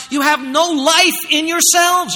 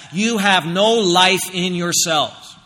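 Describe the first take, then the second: First: High, loud, slow, stress on "life"; emphatic warning. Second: Very slow, stress on "no" in "You have no life in yourselves"; slow grave stress. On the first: Preacher voicing Jesus's warning, loud and slow. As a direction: drag out "you have no life in yourselves" loud and high. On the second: Preacher repeating Jesus's warning, slow stress on no. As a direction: lean on "no", unhurried and weighty. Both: Acted.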